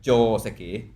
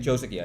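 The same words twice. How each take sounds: First: It has a longer O and different stress. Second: It is said with an English pronunciation. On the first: "in Japanese, the O is longer" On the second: "If I'm talk- speaking in English, I'm saying Joseki"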